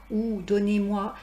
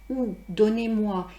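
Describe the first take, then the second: Both takes have the same delivery.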